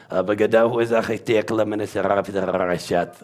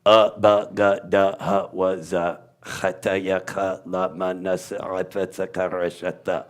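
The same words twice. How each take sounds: First: "Bagadahu" and the rest blurred into one fast throaty stream; run together guttural. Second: Each syllable from "ba" to "ta" separate, growing softer; guttural letter sounds. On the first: Teacher putting all letters together, rapid guttural run. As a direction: race from "Bagadahu" through the alphabet without gaps. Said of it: "You put 'em all together". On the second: Teacher showing the guttural alphabet, syllable by syllable. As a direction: recite "ba, ga, da" onward as throaty evenly spaced sounds. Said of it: "The whole language is a guttural".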